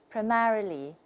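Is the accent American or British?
American. It is said in an American accent. "and that's American"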